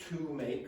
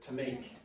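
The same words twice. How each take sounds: First: The word 'to' is said in full form. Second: The word 'to' is reduced and weak. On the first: The speaker calls it wrong. "I didn't say to make" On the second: The speaker calls it right. "I said to make"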